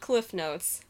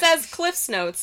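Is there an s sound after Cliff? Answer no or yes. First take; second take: no; yes. First: Cliff ends without an added s sound. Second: Cliff ends with an added s sound. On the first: The speaker calls it wrong. "not Cliff Notes" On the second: The speaker calls it right. "Cliff's Notes, not Cliff Notes"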